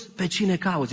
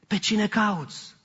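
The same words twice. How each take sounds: First: Lightly voiced question, plain pace; just ask who she seeks; Jesus asking gently. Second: Slow down so she finally gets it; slow hinting question. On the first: Jesus asks weeping Mary at the tomb, mildly voiced. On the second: Acted. Jesus nudges Mary toward recognizing him, slow hint. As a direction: ask it again, slow and pointed.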